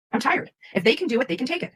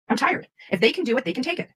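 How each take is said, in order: Both takes have the same delivery.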